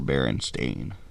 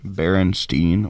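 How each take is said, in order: First: The last syllable rhymes with 'rain'. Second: The last syllable rhymes with 'mine'.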